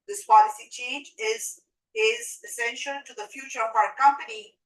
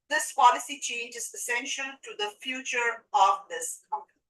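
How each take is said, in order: First: There is a pause before the word essential. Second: It is said without a pause inside.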